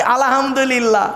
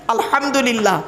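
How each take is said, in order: First: "আলহামদুলিল্লাহ" as alahamdulillah, with a plain h; common mispronunciation. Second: "আলহামদুলিল্লাহ" with h from inside the throat; correct throaty h. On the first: Preacher mimicking how we say it, common mispronunciation. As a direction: slip an extra a before a light h in "আলহামদুলিল্লাহ". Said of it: "আর আমরা উচ্চারণ করি কি". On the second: Preacher modelling the word before its meaning, throaty h. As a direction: sound a throaty Arabic h after al in "আলহামদুলিল্লাহ". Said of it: "গলার ভেতর থেকে হে এটা উচ্চারণ করবেন". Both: Shown as a demonstration.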